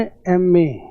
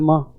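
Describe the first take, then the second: First: It is said as two separate letters. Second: It is said as the single word 'maa'. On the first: The speaker calls it right. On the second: The speaker calls it wrong.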